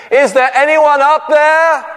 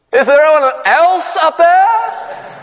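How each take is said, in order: First: High, louder call to the sky; calling upward. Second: Much higher, slow, laughing shout; shouted again. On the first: Man on the cliff calls up to heaven, high and hopeful. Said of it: "looking up, he said". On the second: Man shouts for a better answer, high, slow and laughing. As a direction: yell it up, laughing at the punchline. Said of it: "the man shouted again". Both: Retold or imitated.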